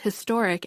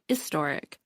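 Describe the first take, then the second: First: The opening h sound is pronounced. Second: The opening h sound is left out. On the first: "the majority of people pronounce the H in historic" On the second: "some people on the East Coast pronounce historic as istoric"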